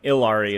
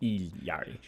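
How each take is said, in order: First: The name is said the American way. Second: The name is said the Quechuan way. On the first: "and Ilari is American" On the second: "But the Quechuan pronunciation is Ilyari"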